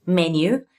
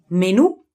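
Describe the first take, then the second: First: Menu pronounced MEN-yoo, accent on MEN; English stress on first syllable. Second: Menù pronounced me-NÙ, accent on the last syllable; Italian stress on final syllable. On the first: Teacher contrasts English with Italian, menu stressed on MEN. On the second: Teacher contrasts Italian with English, menù stressed on NÙ. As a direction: move the stress to the end of menù. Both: Shown as a demonstration. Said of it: "it just changed the accent".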